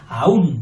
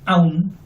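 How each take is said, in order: First: It is two syllables, stressing the u. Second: It is one unstressed syllable. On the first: It means still or yet. "mientras que este lleva fuerza" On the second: It means even. "que es monosílabo, ¿eh? y suele ser átono"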